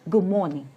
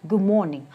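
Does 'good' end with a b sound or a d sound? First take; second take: b sound; b sound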